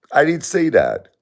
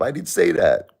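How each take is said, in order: First: I pushed high and loud; emphatic denial. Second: Said in the usual way. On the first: Real, not acted. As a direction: insist you never said it. Repeating denial, much higher louder.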